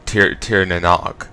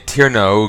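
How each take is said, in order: First: The last word starts with an n sound. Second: The last word starts with a vowel sound. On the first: The speaker calls it wrong. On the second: The speaker calls it right.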